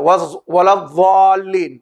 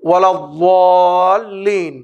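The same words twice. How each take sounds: First: The consonant is a light 'th' as in 'this'. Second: The consonant is a heavy, emphatic d sound. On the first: The speaker calls it wrong. "এটাকে যদি কেউ জাল থেকে বলে" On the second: The speaker calls it right. "শেষ যেটা সেটা হচ্ছে ওয়ালাদ্দাল্লিন"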